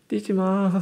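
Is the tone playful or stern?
playful. It is said smiling, in a soft playful tone. The warning is not meant seriously. The speaker calls it wrong. "웃으면서 말해요"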